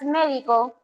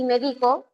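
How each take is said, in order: First: Médico stressed on its first syllable, MÉ-di-co; médico with the weight up front on MÉ. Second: Medico stressed on the middle syllable, me-DI-co. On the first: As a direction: hit the MÉ of médico. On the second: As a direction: lean on the DI in medico. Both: Shown as a demonstration. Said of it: "diferenciar la sílaba tónica entre palabras".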